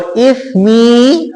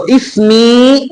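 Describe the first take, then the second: First: Tongue tip on the upper front teeth for اسمی; ithmi with th. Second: اسمی with a clear hissing س, slow and drawn out; teacher models اسمی with a whistling س sound; ismi with s. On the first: Teacher shows students اسمی, meaning my sin, with tongue on teeth. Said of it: "اب سیٹی کی آواز نہیں آئے گی". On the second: Teacher shows students اسمی, meaning my name, with hissing س. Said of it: "سین سیٹی کی آواز نکالیں". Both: Shown as a demonstration.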